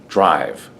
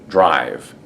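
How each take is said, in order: No difference in how they are said.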